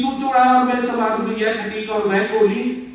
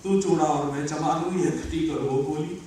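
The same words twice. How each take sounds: First: Ringing stage recital of a verse; full-voiced verse recitation. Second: Low, subdued poem line; understated verse recitation. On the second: Acted. First, low-key take of verse.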